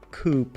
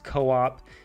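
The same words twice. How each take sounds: First: It is said with a Finnish-style pronunciation. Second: It is said with an American English pronunciation. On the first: "you Finnish people will be like, it's Coop" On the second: "I will always pronounce it as Co-op"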